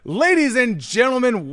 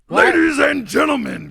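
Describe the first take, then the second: First: It is said in his normal speaking voice. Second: It is said in a monster truck announcer voice.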